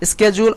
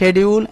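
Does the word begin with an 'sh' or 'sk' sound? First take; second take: sk; sh. First: The word begins with an 'sk' sound. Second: The word begins with an 'sh' sound. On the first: "দুটার pronunciation হয়" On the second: "দুটার pronunciation হয়"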